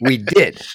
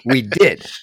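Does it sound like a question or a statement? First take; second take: statement; statement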